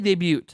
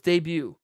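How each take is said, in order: First: The final T is pronounced. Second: The final T is silent. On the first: "we say debut in Wisconsin" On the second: "I know the T is silent"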